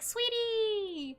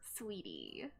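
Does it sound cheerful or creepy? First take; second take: cheerful; creepy. First: It is said in a cheerful, friendly way. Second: It is said in a creepy, unsettling way.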